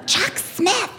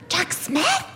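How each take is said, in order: First: High, insistent imitation; emphatic naming. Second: High, questioning imitation; astonished echo. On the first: Shopper explaining whose daughter it is, emphatic. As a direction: drop the famous name with pointed emphasis. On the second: Friend learning whose daughter it is, astonished. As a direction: echo the name as an amazed question.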